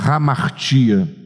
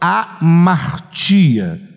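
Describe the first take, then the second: First: The word starts with a breathy h sound. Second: The word starts directly with a vowel.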